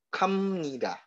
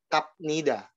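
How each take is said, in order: First: An m sound comes before nida. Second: A p sound comes before nida. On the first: The speaker calls it right. "Ingat kalau ini dibacanya yaitu kam nida" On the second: The speaker calls it wrong. "dibacanya bukan kap nida"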